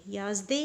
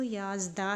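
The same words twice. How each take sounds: First: "याज़दे" with final e vowel; mistaken e ending. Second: "याज़दा" with final long aa; correct aa ending. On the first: Teacher repeats what not to read, "याज़दे" ending in e. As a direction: end "याज़दे" on e rather than aa. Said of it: "याज़दे आपने नहीं पढ़ना". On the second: Teacher insists on the right reading, "याज़दा" ending in aa. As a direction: end "याज़दा" on an open aa. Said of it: "इसको याज़दा ही पढ़ना है". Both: Shown as a demonstration.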